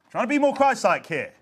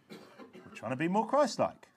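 First: Higher, emphatic declaration; raised repeat. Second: Slow, quiet, understated remark; soft aside. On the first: Preacher explaining why they shout, now high and emphatic. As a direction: lift it up and call it out. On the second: Preacher explaining why they shout, first softly and slowly. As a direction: say it gently, held back. Same line repeated, soft then raised. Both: Real, not acted.

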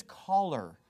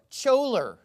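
First: "choler" with a hard K, like "collar"; correct hard K. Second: "choler" with a CH as in church; mispronounced with CH. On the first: Correcting the word for listeners, "choler" said with a K. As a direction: say "choler" as KOL-er. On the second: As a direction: say "choler" wrongly, starting like "chore". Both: Shown as a demonstration. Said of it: "It's not choler, it's choler".

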